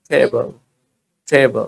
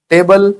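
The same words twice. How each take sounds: First: टेबल as "thay-buh", low and falling; aspirated T. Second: टेबल with a dry T, rising and louder; hard Indian T. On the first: Teacher models for learners, टेबल with a puff on T. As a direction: breathe into the T of टेबल. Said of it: "टी में हल्का सा ठ सा मिला दो". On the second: Teacher shows the usual way, टेबल with hard rising T. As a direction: punch टेबल with no puff of air. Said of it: "हम बोलते हैं टेबल". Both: Shown as a demonstration.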